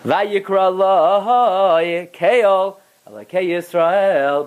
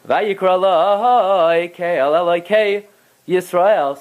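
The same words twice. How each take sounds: First: There is a pause right after Kel. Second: Kel runs straight on without a pause. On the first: God called Jacob by the name Kel. The speaker calls it right. "There's a tipcha after the Kel" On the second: Jacob named the altar God of Israel. The speaker calls it wrong. "But if you read it"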